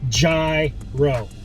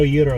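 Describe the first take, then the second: First: It is pronounced the way it's said in New York. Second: It is pronounced the way it's said in Greece. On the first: The speaker calls it wrong. "I'm pronouncing it the way they pronounce it in New York" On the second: The speaker calls it right. "the correct way to say it because that's how they would say it in Greece"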